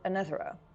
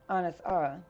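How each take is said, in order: First: It is run together as one word. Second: It is split into two separate words. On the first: "She pronounced it" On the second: "like distinctly two different words"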